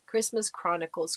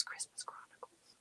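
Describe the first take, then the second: First: Said in the usual way. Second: Christmas Chronicles breathed out softly, no voice; whispered to herself. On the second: Real, not acted. Streamer whispering a viewer's movie suggestion to herself. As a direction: whisper it under your breath to remember it.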